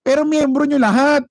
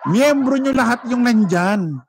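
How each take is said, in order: First: Higher, louder cry of protest; indignant outburst. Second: Slower, laughing restatement; laughing repeat. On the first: Vlogger retorting that all attendees are members, loud indignant. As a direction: shout the retort in disbelief. Indignant rebuttal to rally claims. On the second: Vlogger repeating that all attendees are members, slow laughing. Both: Real, not acted.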